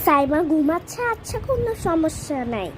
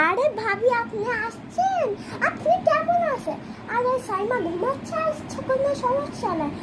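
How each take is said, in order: First: Said in the usual way. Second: Higher, syrupy welcoming voice; sweet welcoming mom. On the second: Acted. Mom greeting her sister-in-law, sweet and high. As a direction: gush over the visiting sister-in-law.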